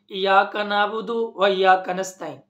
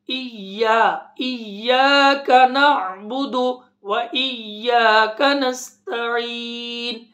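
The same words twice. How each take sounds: First: "इय्याका नअबुदु" run together as plain "iyaka nabudu"; common mispronunciation. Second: "इय्याका" slow with a strongly doubled y; careful tajweed. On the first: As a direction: say "नस्तईन" quickly, no doubled y, pause or long vowels. ("इय्याका" बिना तशदीद, सपाट बोलकर) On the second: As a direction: chant "नअबुदु" with a throaty ain, long-held "नस्तईन". ("इय्याका" में तशदीद, धीमी तिलावत) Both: Shown as a demonstration. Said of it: "इस तरह नहीं पढ़ना".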